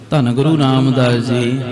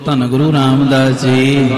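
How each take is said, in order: First: The phrase is said softly, without force. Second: The phrase is said loudly, with a roar. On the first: The speaker calls it wrong. "ਏਦਾਂ ਨਾ ਕਹੋ" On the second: The speaker calls it right. "ਗੱਜ ਕੇ ਬੋਲੋ"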